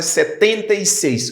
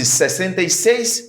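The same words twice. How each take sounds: First: Portuguese setenta e seis, stress on setenta; Portuguese seventy-six. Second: Portuguese sesenta e seis, said clearly; Portuguese sixty-six. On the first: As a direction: hit setenta so it stands apart. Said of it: "potan la se setenta e seis". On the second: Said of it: "Pa egzanp". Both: Shown as a demonstration.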